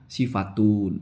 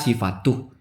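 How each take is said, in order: First: The word ends with a final n sound. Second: The word ends without a final n sound. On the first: The speaker calls it right. "cuman kurang setengah, sifatun" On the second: The speaker calls it wrong. "dibaca sifatuh ... cuma kurang tanwin"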